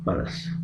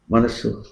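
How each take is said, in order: First: Whispered word. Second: Said in the usual way. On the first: Shown as a demonstration.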